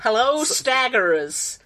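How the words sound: It is said in a put-on American accent.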